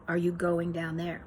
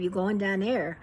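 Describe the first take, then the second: First: "Are you going down there" in full, each word separate; corrected standard pronunciation. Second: Casual Pittsburgh run-together question; Pittsburghese. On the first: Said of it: "I should say". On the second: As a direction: say it in lightly done Pittsburghese, dropping the first word. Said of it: "She corrected my Pittsburghese pronunciation". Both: Acted.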